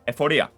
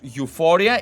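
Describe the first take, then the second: First: It is pronounced the Greek way, starting 'ev'. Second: It is pronounced the English way, starting 'you'. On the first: "It's Ephoria" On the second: "the one you guys pronounce as euphoria"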